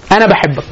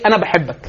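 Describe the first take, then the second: First: Said in the usual way. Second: Soft, hushed انا بحبك, said gently and much quieter; quiet, affectionate انا بحبك; tender child's words. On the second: Retold or imitated. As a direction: murmur انا بحبك softly like a little one saying it to a parent. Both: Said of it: "يعني يقول لك ايه؟".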